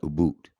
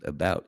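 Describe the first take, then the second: First: It is said in a Canadian accent. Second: It is said in an American accent.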